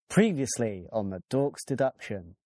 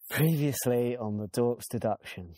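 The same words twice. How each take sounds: First: It is said in a chirpy, cheerful tone. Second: It is said in a bored, flat tone.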